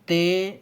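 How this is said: The letter name is said in an Urdu accent.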